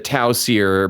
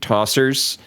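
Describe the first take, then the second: First: It is said as two parts, tau sear. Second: It is said like the single word tossers. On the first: The speaker calls it right. "the Tau Sear" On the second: The speaker calls it wrong. "became Tossers"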